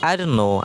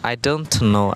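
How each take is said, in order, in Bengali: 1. "don't"-এর t নীরব। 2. "don't"-এর t স্পষ্টভাবে উচ্চারিত হয়। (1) "এর উচ্চারণটাও হিডেন থাকবে" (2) "অনেকে কিন্তু এখানে ভুল আছে"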